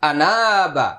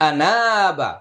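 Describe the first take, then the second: Both takes have the same delivery.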